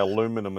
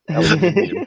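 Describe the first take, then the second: First: It is said with four syllables, aluminum. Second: It is said with five syllables, aluminium.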